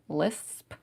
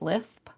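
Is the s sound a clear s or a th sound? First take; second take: clear s; th sound. First: The s is a clear hissing sound. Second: The s comes out as a th sound.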